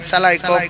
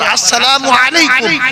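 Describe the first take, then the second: First: The greeting is clipped to a short form. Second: The greeting is said fully with every syllable. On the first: It wishes that the listener's head be cut off. The speaker calls it wrong. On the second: It is a proper greeting that earns blessings. The speaker calls it right.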